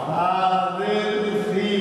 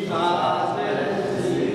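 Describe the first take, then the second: No difference in how they are said.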